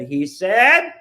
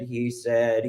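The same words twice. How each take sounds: First: Final he said lifted and louder, rising at the end; last he said of the refrain thrown up high and loud. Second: Said in the usual way. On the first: Acted. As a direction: punch the last he said up and out. Repeated refrain in poem.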